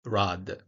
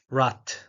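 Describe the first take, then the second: First: "rad" with the final D fully voiced. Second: "rat" for German "Rad", ending in a T; final devoicing. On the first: Lecturer contrasting German devoicing, voiced D kept in "rad". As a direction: keep the D sounding at the end of "rad". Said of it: "instead of rad". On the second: Lecturer showing German devoicing, "Rad" ending as "rat". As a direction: say "Rad" with a hard voiceless final T. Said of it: "final obstruents are devoiced". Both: Shown as a demonstration.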